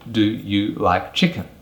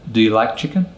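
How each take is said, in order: First: The words do you are fully pronounced. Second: The words do you are reduced and weak. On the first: The speaker calls it wrong. "A native English speaker would not ask you" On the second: The speaker calls it right. "They would actually say ... this is what we call a weak form"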